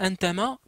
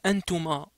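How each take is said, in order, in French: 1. La voyelle du milieu est le son 'a'. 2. La voyelle du milieu est le son 'u'. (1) "vous ne dites pas un tama" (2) "mais vous dites un tuma"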